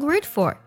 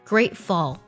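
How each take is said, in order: First: The word ends with an r-colored sound. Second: The word ends with a clear L sound. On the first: The speaker calls it wrong. "给词尾加儿化音，说成grateful 就不对了" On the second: The speaker calls it right. "舌侧音收尾"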